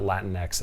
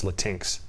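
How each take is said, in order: First: "Latinx" split like Latin plus X. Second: "Latinx" rhyming its end with drinks; Latinx as la-TINKS. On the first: Man mocking dating profiles shows the rejected reading, "Latinx" as LAT-in-ex. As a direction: say "Latinx" as LAT-in-ex, stress up front. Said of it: "That's how you pronounce that. It's not". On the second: Man mocking dating profiles insists on his reading, "Latinx" as luh-TINKS. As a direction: say "Latinx" as luh-TINKS, one run-together word. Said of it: "That's how you pronounce that". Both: Shown as a demonstration.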